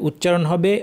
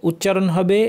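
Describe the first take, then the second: Both takes have the same delivery.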